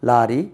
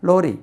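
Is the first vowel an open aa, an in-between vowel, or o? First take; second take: aa; o. First: The first vowel is an open aa sound. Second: The first vowel is a rounded o sound. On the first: "முதல்ல இதை சொல்லுவேன்" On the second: "மூணாவது ஓ சொல்லுவேன்"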